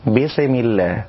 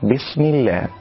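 First: The s ends with a bouncing, vowel-like release. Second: The s is held still without any release. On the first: The speaker calls it wrong. "كذلك من الأخطاء قلقلة السين" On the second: The speaker calls it right. "والصواب أن يأتي بالسين الساكنة بصورة صحيحة بلا تحريك ولا اضطراب"

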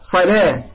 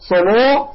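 First: The long vowel is an open a sound. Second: The long vowel is rounded toward an o sound. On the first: The speaker calls it right. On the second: The speaker calls it wrong.

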